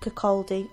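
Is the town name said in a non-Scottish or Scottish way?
non-Scottish. The name is said in a non-Scottish way.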